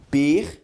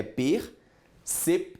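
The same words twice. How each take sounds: First: Percepção in four loud pieces, per, ce, pi, ção; percepção chopped per... ce... pi... ção; wrong syllable split. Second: Percepção in three slow beats, per, cep, ção; percepção split per... cep... ção, higher voice; correct syllable split. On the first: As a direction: sound out percepção with the p as its own syllable pi. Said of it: "poderia ter separado pra você assim". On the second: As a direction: sound out percepção with the p closing cep. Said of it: "a separação de percepção é daquele jeito". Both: Shown as a demonstration.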